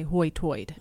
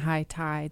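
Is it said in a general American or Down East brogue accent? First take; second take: Down East; general American. First: It is said in a Down East brogue. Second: It is said in a general American accent.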